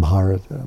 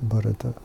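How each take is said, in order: First: The first vowel is long. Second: The first vowel is short. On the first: The speaker calls it wrong. "Not Bharata" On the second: The speaker calls it right. "with the short A"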